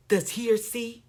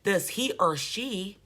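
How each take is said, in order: First: Said in the usual way. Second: Slow, dragged imitation of the preacher; lightly mimicking a slurring preacher, slowed down; mock slurred. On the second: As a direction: drag the words out like a tipsy speaker. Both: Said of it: "he didn't go back and say".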